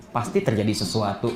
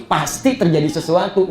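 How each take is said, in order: First: Low, soft suspicious thought; curiga dalam hati. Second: PASTI said firmly at full voice; insistent suspicion. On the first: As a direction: murmur it low as if thinking to yourself. Curiga dalam hati, lalu diulang. (gumaman curiga, pelan dan rendah) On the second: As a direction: press on "pasti", as if now convinced. Kecurigaan diulang lebih tegas. (tekankan kata "pasti" dengan yakin) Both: Acted.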